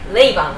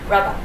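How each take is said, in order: First: The first vowel sounds like 'ay'. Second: The first vowel sounds like 'ah'. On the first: This is how a reader might guess the name from its spelling. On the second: This is how the band members say the name.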